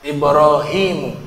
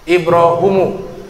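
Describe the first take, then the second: First: The vowel after the h is a long i. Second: The vowel after the h is a u. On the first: "Ada ya juga di huruf h-nya" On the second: "Bacaan yang kelima dibaca dhamma huruf h-nya"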